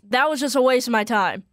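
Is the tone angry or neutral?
angry. It is said in an angry tone.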